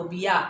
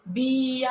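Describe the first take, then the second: First: बिया said quickly, i kept short; बिया, brief and unstretched; quick short vowel. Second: बिया with the bi stretched long; बिया said slowly, first vowel held long; wrongly lengthened vowel. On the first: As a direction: say बिया promptly without lengthening bi. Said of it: "आपण पटकन म्हणतो". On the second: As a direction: drag out the ee in बिया. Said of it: "असं लांब म्हणत नाही आपण". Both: Shown as a demonstration.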